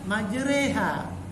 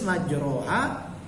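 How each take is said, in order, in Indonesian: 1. Vokal setelah r seperti e. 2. Vokal setelah r seperti a terbuka. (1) "tapi dibaca majreha" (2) "Tertulis majroha"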